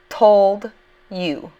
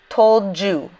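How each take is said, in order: First: The two words are said separately. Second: The two words run together.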